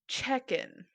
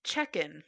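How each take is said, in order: First: Check-in repeated, a little higher; corrected check-in. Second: Said in the usual way. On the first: Shown as a demonstration. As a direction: say Check-in once more, clearly. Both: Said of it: "I said chicken, didn't I?".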